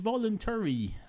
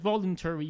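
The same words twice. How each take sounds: First: The stress falls on a late syllable. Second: The stress falls on an early syllable. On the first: This is a personal preference against the norm. "I happen to like uh, the latter syllables in some words more than other people, and I put stress on those" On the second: This is how most people say it. "everyone else in society says voluntary"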